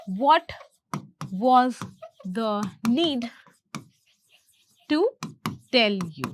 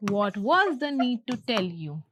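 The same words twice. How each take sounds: First: Slow dictation, long gaps between words. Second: Said in the usual way. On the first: Shown as a demonstration. Teacher translating the line for learners, word by word. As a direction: say each word separately and deliberately.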